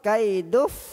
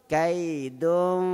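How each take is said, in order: First: The n sound merges completely into the f. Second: The n sound is hidden with a nasal hum. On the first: The speaker calls it wrong. "Kalau idgham" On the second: The speaker calls it right. "di antara izhar dengan idgham"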